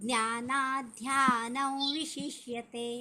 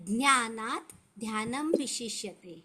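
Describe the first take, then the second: First: The words run together with sounds merged. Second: The words are said separately with sounds unmerged.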